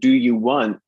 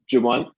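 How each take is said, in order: First: Each word of 'do you' is said fully. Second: 'Do you' blends into a short 'ja' sound. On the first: "instead of saying do you want"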